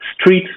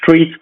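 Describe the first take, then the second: First: The word begins with a plain s sound. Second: The word begins with a sound like sh.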